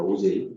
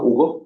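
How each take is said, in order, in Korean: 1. 가운데 자음은 부드러운 zh 소리예요. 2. 가운데 자음은 센 g 소리예요. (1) "오제이입니다" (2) "책을 안 읽은 학생은 ... 뭐 이렇게 발음해요. 큰일 나요"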